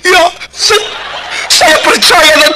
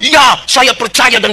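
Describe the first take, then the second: First: It is said in an overly dramatic, emotional way. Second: It is said in a plain, calm way. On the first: "Kadang-kadang dong dramatisir, pakai menang" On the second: "Biasa di sini jawab bilang"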